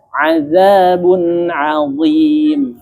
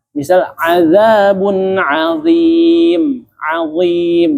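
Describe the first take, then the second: First: "azabun azim" slow, tongue tip on tooth tip; correct makhraj demo. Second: "azabun azim" with tongue behind the teeth, slow; wrong makhraj demo. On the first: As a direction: show the right "azabun azim" slowly. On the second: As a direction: show the mistaken "azabun azim". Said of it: "itu bunyinya sama, namun salah makhraj". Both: Shown as a demonstration.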